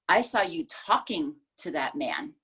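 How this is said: The word "talking" carries the main stress. The issue is that you were talking to him.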